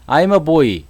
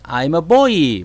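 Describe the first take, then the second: First: It has a standard Seoul-style Korean intonation. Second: It has a Gyeongsang dialect Korean intonation. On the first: "원래 원래 영어는 어떻게 해야 돼요?" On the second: "경상도 쪽에는 그렇게 한다면"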